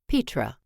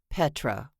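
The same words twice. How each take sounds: First: The first vowel is long, as in peat. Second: The first vowel is short, as in pet. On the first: The speaker calls it right. "she said correctly" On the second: The speaker calls it wrong. "It's not Petra, like your cat is a pet"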